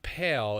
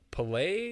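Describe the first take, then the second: First: The name sounds like the word pale. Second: The name sounds like pa-lay, two syllables. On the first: The speaker calls it wrong. "It's not Pale" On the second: The speaker calls it right. "It's P- Palais"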